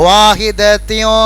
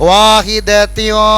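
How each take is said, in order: No difference in how they are said.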